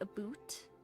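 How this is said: The vowel sounds like 'oo', as in 'boot'. "they'll say aboot"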